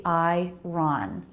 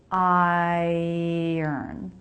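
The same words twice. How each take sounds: First: "I-ron" said wrongly as two syllables with R before the vowel; "I-ron" as the letters suggest; spelling pronunciation. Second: "Iron" as "eye-ern", R after the schwa; "Iron" with the R swallowed into the second syllable; correct iron. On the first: Teacher showing the wrong, letter-based way to say "iron". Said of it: "It looks like it should be". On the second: Teacher modelling the right "iron" for learners. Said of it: "the R comes after the vowel". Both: Shown as a demonstration.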